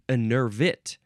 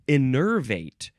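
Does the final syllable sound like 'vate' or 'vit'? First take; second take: vit; vate. First: The last syllable sounds like 'vit'. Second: The last syllable sounds like 'vate'. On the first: The speaker calls it right. "Evit, not vate, vit" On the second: The speaker calls it wrong. "not vate"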